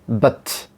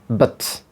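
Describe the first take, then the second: First: The vowel is a very short, reduced schwa. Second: The vowel is a very short, reduced schwa.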